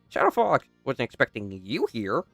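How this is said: It is said in Kinger's calmer voice.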